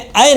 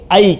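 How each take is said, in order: First: The vowel is one steady sound without gliding. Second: The vowel glides from 'a' toward 'y'. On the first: This is the Urdu way of saying it. The speaker calls it wrong. "Urdu में रहेगा तो कहेंगे ऐ, लेकिन अरबी में ऐ नहीं" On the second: This is the Arabic way of saying it. The speaker calls it right. "बल्कि ऐ कहेंगे"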